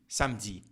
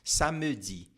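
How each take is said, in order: First: The word is said quickly. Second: The word is said slowly. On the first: It means Saturday. "a gente fala um pouco mais rápido" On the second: It means 'that tells me' (ça me dit). "a gente fala um pouquinho mais devagar"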